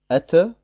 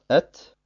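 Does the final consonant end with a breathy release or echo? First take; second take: echo; breathy release. First: The final consonant ends with a bouncing echo vowel. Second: The final consonant ends with free flowing breath. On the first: The speaker calls it wrong. "Man sagt also nicht Ette" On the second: The speaker calls it right. "dabei lässt man schon dem Luftstrom seinen freien Lauf"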